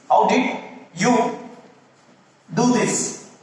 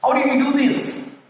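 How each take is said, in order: First: Slow, broken into two parts; slow spaced question. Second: High questioning pitch; asking a question. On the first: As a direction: spell it out slowly for students. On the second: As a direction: ask it like a real question. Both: Shown as a demonstration. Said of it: "you should ask, like, a question".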